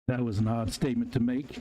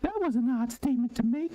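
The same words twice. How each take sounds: First: It is read in his normal voice. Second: It is read in a put-on high voice.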